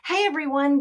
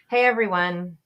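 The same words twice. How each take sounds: First: The voice sounds warm and happy. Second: The voice sounds reluctant and displeased. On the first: The speaker is glad to see everyone. "sound and look happy" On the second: The speaker does not mean the friendly words. "show dislike"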